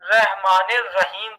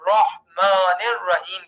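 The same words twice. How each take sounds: First: رحمان الرحیم with thin "reh"; wrong light ra. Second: Slow رحمان الرحیم, rounded "roh-maan"; heavy ra. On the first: Teacher quoting people's mistake, رحمان الرحیم with light "reh". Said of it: "تو یہ غلط ہو جاتا ہے". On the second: Teacher correcting learners, slow رحمان الرحیم with heavy R. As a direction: thicken the R of رحمان الرحیم to "raw". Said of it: "یعنی موٹا کر کے پڑھنا ہے". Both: Shown as a demonstration.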